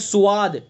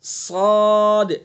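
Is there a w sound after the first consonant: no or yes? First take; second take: yes; no. First: A w sound follows the first consonant. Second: A long a vowel follows the first consonant. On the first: The speaker calls it wrong. "इसको स्वाद पढ़ते हैं स्वाद, स्वाद गलत है ये" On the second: The speaker calls it right. "ये अलिफ के साथ पढ़ा जाएगा"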